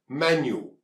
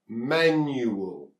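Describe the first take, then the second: First: It is said quickly with its sounds squeezed together. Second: It is said slowly with its sounds kept apart. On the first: "when we speak it quickly, these sounds get squeezed together" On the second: "Three sounds"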